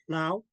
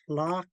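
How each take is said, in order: First: The word ends in an 'ow' sound. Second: The word ends in an 'ah' sound. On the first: The speaker calls it wrong. "I was saying flout" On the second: The speaker calls it right. "instead of flock"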